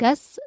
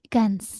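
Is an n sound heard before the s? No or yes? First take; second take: no; yes. First: No n sound is heard before the s. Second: An n sound is heard before the s. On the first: The speaker calls it wrong. "bukan gas" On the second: The speaker calls it right. "tapi Gans ada N-nya"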